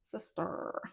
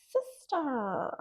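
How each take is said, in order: First: Soft whispered repeat. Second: Light, teasing call; playful sing-song. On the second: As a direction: call her sister, teasing. Playful repeated address. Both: Acted.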